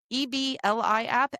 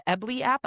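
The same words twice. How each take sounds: First: E B L I said as four separate letter names; spelled out letters. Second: Ebly said as one word, EB-lee, then app; sounded out as word. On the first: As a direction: spell E B L I letter by letter, then app. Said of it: "say the letters or make a sound". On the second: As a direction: blend the letters into the word Ebly. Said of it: "make a sound with those letters". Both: Shown as a demonstration.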